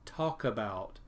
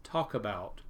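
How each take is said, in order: First: The k sound is joined onto the next word. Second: The same.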